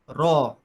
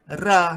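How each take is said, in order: First: The r sound is heavy and full-mouthed. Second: The r sound is light and thin. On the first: "Kalau kalau tebal baca raw" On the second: "Kalau nipis macam mana?"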